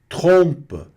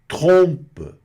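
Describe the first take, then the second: The two takes are said the same way.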